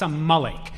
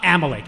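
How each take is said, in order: First: The name is pronounced in the Hebrew way. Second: The name is pronounced in an anglicized way. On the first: The speaker calls it right. "I'm going to give you all a Hebrew lesson" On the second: The speaker calls it wrong. "It's not Amalek"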